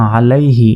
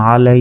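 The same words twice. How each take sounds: First: Said in the usual way. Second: "আলাই" with its last vowel stretched on a level note; elongated waqf. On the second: Shown as a demonstration. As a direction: hold the final "ai" of "আলাই" very long. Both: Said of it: "ওয়াকফ করলে".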